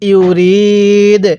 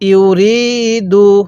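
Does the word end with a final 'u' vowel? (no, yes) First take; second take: no; yes. First: The word ends on the consonant without a vowel. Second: The word ends with a short 'u' vowel. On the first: The reader stops at this word. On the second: The reading continues without stopping.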